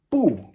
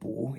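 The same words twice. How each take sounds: First: The syllable is said with a falling tone. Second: The syllable is said with a rising tone. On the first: It means no on its own. "Fourth tone" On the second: It is used in combination with another word. "It can also be pronounced second tone"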